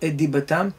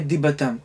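First: The t sound of the first word is dropped. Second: The t sound of the first word is dropped.

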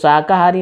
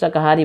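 First: The word is pronounced fully and carefully. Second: The word is pronounced quickly and clipped. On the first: "शाकाहारी नहीं" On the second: "Bhojpuri में शाकाहारी जल्दी से जो है मतलब उच्चारण जो करते हैं"

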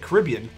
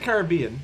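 First: It uses an American pronunciation of the word. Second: It uses a non-American pronunciation of the word. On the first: "Americans say Caribbean" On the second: "We say Caribbean"

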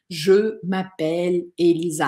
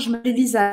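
First: Words are said separately in a choppy way. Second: Words are said fast and run together.

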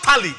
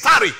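First: The middle consonant is an L sound. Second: The middle consonant is an R sound. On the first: The speaker calls it wrong. "It is not tally" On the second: The speaker calls it right. "it is tarry"

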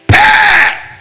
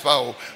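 First: It is called out harshly, like a fight. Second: It is said softly and lovingly.

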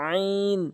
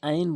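First: The vowel is drawn out long. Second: The vowel is said short, not drawn out. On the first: The speaker calls it right. "এভাবে টেনে টেনে বলবেন" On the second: The speaker calls it wrong. "কখনোই আইন বলবেন না"

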